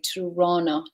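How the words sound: The name is said the way locals say it. "they say Toronto"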